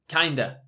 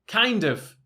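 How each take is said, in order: First: The word of is reduced to a. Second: The word of is said in full.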